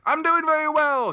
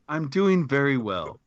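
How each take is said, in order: First: It is said in an old-fashioned announcer voice. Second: It is said in a plain, natural speaking voice.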